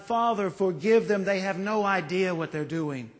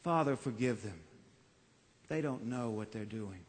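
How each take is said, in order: First: Pleading for those who hurt him. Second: A dying man's faint plea; hushed plea. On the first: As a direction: beg on behalf of others. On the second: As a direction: lower and much softer, fading pleading. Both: Retold or imitated. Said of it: "pleading for us".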